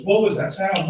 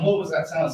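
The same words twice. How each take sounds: First: Pitched higher, a desperate demand; frantic plea. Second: Said in the usual way. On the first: Retold or imitated. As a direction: pound on the doors begging for the answer. Frantic monk banging on doors.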